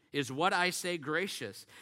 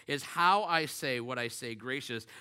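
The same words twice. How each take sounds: First: "what" pushed up and held in "Is what I say gracious?"; preacher's question with the weight on "what"; stress on WHAT. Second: "how" pushed up and stressed in "Is how I say what I say gracious?"; preacher's question with the weight on "how". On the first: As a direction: lean hard on "what", the rest lighter. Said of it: "It matters just as much what we say". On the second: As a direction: lean hard on "how", then let the line fall. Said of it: "as how we say it". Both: Shown as a demonstration.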